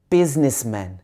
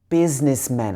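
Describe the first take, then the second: Both takes have the same delivery.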